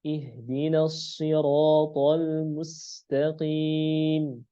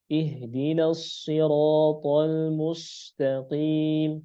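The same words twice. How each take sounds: First: Slow recitation with light s in MUSTAQIM; thin sin. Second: Slow recitation with thick sod-like s in MUSTAQIM; drawn out, tongue raised on "mus" of "mustaqim"; wrong heavy sin. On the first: Teacher shows the right reading, slow thin "mustaqim". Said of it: "Asanya rendah lidahnya". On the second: Teacher recites it wrongly, slow heavy "mustaqim". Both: Shown as a demonstration.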